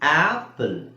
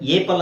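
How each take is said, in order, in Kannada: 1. ಈ ಪದ 'ah' ಸ್ವರದಿಂದ ಶುರುವಾಗುತ್ತೆ. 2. ಈ ಪದ 'ay' ಸ್ವರದಿಂದ ಶುರುವಾಗುತ್ತೆ. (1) "ಏನ್ ಹೇಳ್ತೀವಿ? ಆಪಲ್" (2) "ಏಪಲ್ ಅಂತ ಹೇಳ್ತೀವ? ಇಲ್ಲ"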